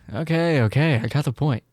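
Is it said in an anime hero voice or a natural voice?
natural. It is said like a natural, real person.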